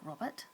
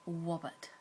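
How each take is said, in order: First: The first sound is an R. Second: The first sound is a W. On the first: The speaker calls it right. "make sure you curl your tongue back" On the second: The speaker calls it wrong. "it will come out like a W sound"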